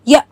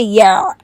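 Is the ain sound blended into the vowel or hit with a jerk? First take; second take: jerked; blended. First: The throat sound is hit with a hard jerk. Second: The throat sound merges into the preceding vowel. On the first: "आइन के ऊपर बहुत ज़्यादा झटका देते हैं" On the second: "जो उससे पहले जो हर्फ आ रहा होता है उसके साथ उसको मिला देते हैं"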